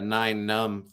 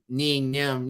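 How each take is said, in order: First: The first word is said like 'nine'. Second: The first word is said like 'nee'.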